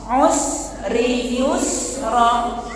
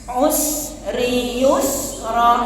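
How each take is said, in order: The two takes are said the same way.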